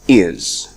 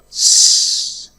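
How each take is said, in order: First: The full word with its vowel is said. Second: Only a short hissing s sound is said. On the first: "The strong form is is" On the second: "Is has two weak forms. The first one is s"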